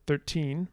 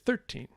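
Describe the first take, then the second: First: The stress is on the second syllable. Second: The stress is on the first syllable. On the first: The word stands alone. "the English word thirteen" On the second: The word comes before a stressed noun. "when you put it next to a, a noun, you often get thirteen"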